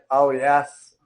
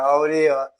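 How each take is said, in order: First: The stress is on the first syllable. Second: The stress is on a later syllable. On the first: The speaker calls it right. "o A, o som dele é mais forte" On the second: The speaker calls it wrong. "Se você forçar mais o E"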